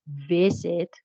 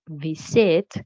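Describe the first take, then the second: First: Visit stressed on the first syllable, VI-sit; correct stress. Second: Visit stressed on the second syllable, vi-SIT; wrong stress. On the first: Teacher demonstrating the right stress on visit. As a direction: land on VI in visit. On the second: Teacher showing the mistaken stress on visit. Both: Shown as a demonstration. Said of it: "again, visit, not visit".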